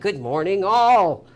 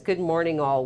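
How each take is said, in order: First: It is said with loud, high energy. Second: It is said in a plain, calm way.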